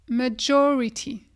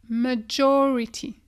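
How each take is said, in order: The two takes are said the same way.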